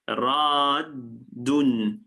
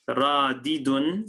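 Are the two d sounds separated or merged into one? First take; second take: merged; separated. First: The two d sounds merge into one doubled d. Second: A vowel separates the two d sounds. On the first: The speaker calls it right. "we double the dal again and say radun" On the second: The speaker calls it wrong. "radidun sounds a bit mealy mouthed"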